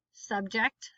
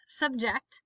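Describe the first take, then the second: First: Subject as SUB-ject; stress on first syllable. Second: Subject as sub-JECT; stress on second syllable. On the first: Teacher reading word list aloud, stress on first syllable. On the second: Teacher reading word list aloud, stress on second syllable. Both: Shown as a demonstration. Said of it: "both of the different pronunciations".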